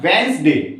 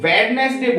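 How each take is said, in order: First: The first d sound is silent. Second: The first d sound is pronounced. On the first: The speaker calls it right. "इसको बोलते हैं वेंसडे" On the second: The speaker calls it wrong. "इसको तो obviously wrong पढ़ते हैं, इसको वेडनेसडे बोलते हैं"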